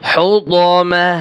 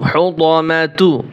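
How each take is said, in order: First: The word ends on 'ma', the last syllable dropped. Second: The word ends with a final 'tu' syllable. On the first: The reader stops at this word. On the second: The reading continues without a stop.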